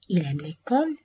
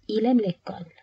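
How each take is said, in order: First: The voice rises at the end, a question. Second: The voice falls at the end, a statement.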